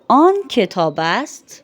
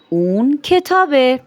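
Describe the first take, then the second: First: The phrase ends with a full, separate ast. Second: The phrase is reduced and ends in eh. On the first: This is the formal written form. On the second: This is the everyday spoken form.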